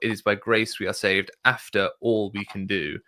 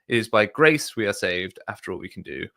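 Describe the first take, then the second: First: The emphasis falls on the words we can do. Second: The emphasis falls on the word grace. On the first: One must do everything, and grace only fills the gaps. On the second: Salvation comes mainly through grace.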